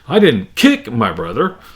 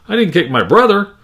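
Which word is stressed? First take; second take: kick; brother. First: The stress falls on the word kick. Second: The stress falls on the word brother. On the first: The brother was beaten up without kicking. "Or if I change it to kick" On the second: The sister was kicked instead. "or even brother"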